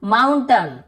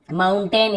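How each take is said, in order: First: "माउंटेन" said as माउंटन, weak last vowel; short अ ending. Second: "माउंटेन" ending in a full ए, "-टेन"; alternative pronunciation. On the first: Teacher giving an AI example, "माउंटेन" ending -टन. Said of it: "यहाँ पर भी अ उच्चारण". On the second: Teacher allowing the other accent's way, "माउंटेन" with full -टेन. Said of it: "इसे भी बोल देते हैं". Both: Shown as a demonstration.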